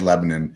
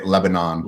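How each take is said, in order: First: It is said the local Pennsylvania way. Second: It is said the general American way.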